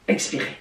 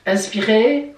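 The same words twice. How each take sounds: First: Low, soft breathing instruction; breathe-out cue. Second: Breathing instruction ending on a rise; breathe-in cue. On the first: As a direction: let "expirer" drop low and soft. (consigne d'expiration, voix basse et douce) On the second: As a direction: cue the in-breath, lifting the end of "inspirer". (consigne d'inspiration, ton montant) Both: Shown as a demonstration. Guides a breathing exercise.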